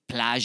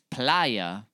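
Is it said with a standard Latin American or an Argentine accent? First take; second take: Argentine; Latin American. First: It has the Argentine sh-like y sound. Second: It has a standard Latin American y sound.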